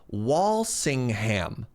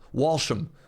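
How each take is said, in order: First: The name is said in full, all syllables. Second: The name is shortened, middle syllables dropped. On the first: This is how a Canadian would say it. "As a Canadian" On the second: This is how the English would say it. "the English would just pronounce it"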